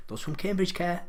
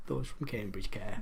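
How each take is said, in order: First: Lifted pitch, coming out of a laugh; amused retort. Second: Low, slow and softer; sober repeat. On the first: Quizmaster joking about who cares about Cambridge, amused retort. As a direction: answer back through a chuckle, pitch rising. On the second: Quizmaster defending people from Cambridge, low sober repeat. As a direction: bring it down, slower and quieter, as a settled point. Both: Real, not acted.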